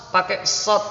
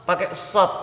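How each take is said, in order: Both takes have the same delivery.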